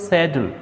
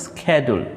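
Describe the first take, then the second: First: ସେଡ୍ୟୁଲ୍ with a British sh- start; British pronunciation. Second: ସ୍କେଡ୍ୟୁଲ୍ said American style, starting with a hard sk sound; American pronunciation. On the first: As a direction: say ସେଡ୍ୟୁଲ୍ as SHED-yool. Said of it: "British ଇଂଲିଶରେ ଆମେ କୁହନ୍ତି". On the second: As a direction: say ସ୍କେଡ୍ୟୁଲ୍ as SKED-jool. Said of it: "American ଇଂଲିଶରେ ତାକୁ କୁହନ୍ତି". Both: Shown as a demonstration.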